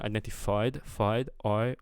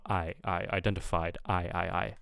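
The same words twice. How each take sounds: First: "identified" with "fied" as "foyd"; off diphthong. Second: "identified" with a clear open eye vowel; target diphthong. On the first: Reviewer copying the learner's identified, oy-like vowel. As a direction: round the I in "identified" toward oy. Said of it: "I'm kind of hearing". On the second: Reviewer modelling the wanted identified, clear eye vowel. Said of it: "but I want". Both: Shown as a demonstration.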